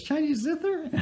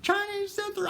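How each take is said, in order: First: Very high falsetto woman imitation; eager woman's question. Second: Shrieky falsetto imitation of a woman's meltdown; mock crying scream. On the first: Eager buyer greets the seller in the parking lot, mock falsetto question. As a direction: squeak it as a hopeful question, mimicking her. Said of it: "big smile on her face". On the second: Thwarted buyer has a meltdown at the seller, mock screaming falsetto. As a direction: wail it very high without real volume. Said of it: "She starts crying and screaming".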